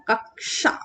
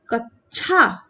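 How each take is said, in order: First: कक्षा as "kak-sha"; correct pronunciation. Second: कच्छा as "kach-chha"; mispronunciation. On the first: Teacher correcting the misreading, कक्षा as "kaksha". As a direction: sound the k before "sha" in कक्षा. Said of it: "ये लिखा है". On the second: Teacher reading the word the wrong way, कच्छा as "kachchha". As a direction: hit a "chha" at the end of कच्छा. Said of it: "no, बिल्कुल नहीं". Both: Shown as a demonstration.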